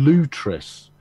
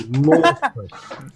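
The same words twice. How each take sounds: First: "Lutris" with a long oo, LOO-tris. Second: "Lutris" drawn out slowly as LAW-tris. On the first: Retold or imitated. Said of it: "he pronounces it". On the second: Shown as a demonstration. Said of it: "as I'm speaking the Queen's English".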